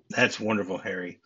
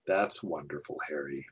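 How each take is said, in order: First: Sarcastic. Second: Dry, deadpan sarcasm on That's wonderful, Harry; sarcastic. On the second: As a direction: say it with a flat, mocking drop on Harry. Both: Retold or imitated. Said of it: "her sarcastic".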